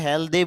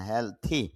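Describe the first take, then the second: First: The middle consonant is a d sound. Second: The middle consonant is a th sound. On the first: The speaker calls it wrong. "দি না" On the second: The speaker calls it right. "থ sound"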